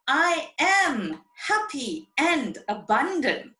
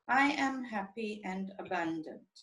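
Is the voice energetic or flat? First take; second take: energetic; flat. First: It is said lively with lots of energy. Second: It is said flatly with little energy. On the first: The body is told that one is truly happy. The speaker calls it right. "what a message you are sending to your body" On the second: The brain hears that this does not feel good. The speaker calls it wrong. "And you say it like this, ... Where's the energy?"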